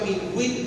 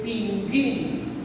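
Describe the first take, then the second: First: The u after the g is pronounced. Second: The u after the g is silent. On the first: The speaker calls it wrong. "yo pronunciaba pingüín aún sin tener la diéresis" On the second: The speaker calls it right. "la palabra correcta es pinguín, de pingo, sin la diéresis"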